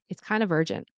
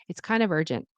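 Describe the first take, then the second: The two takes are said the same way.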